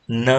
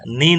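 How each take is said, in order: First: "ન" with a neutral "uh" vowel; "ન" as a bare N plus schwa; E read as schwa. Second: "ને" with a full front vowel, nearly "nee"; "ને" read by its spelling, not reduced; mistaken reading. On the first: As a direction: say "ન" as "nuh", the E reduced. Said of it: "એનો ઉચ્ચાર અ તરીકે". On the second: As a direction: show "ને" as the reading to avoid, vowel fully sounded. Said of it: "ને નહીં વાંચતા". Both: Shown as a demonstration.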